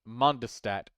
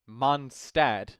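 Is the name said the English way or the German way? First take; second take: English; English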